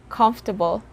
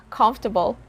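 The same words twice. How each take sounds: The two takes are said the same way.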